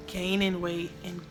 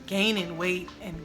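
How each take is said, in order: Both takes have the same delivery.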